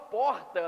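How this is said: The R is said in a Rio accent. "eu não falo porta"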